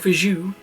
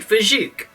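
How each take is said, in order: First: The word ends without a K sound. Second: The word ends with a K sound. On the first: "you can have a silent K" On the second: "I always say Fajouk"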